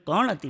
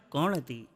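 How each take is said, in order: First: Suspicious કોણ હતી at near usual pitch and level; a hint of a jealous wife asking કોણ હતી again; wife's tone repeated. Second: Low, soft, loaded question from a jealous wife; quietly accusing કોણ હતી, voice dropped and heavy; suspicious wife tone. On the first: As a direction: replay the wife's question, lightly suspicious. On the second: Retold or imitated. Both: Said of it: "એને tone જોજો".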